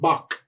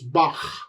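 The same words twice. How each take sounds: First: The h sound at the end is dropped. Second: The h sound at the end is pronounced. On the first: The speaker calls it wrong. "It's not Bach" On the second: The speaker calls it right. "you do pronounce the H"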